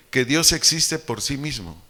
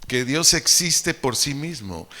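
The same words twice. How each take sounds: The two takes are said the same way.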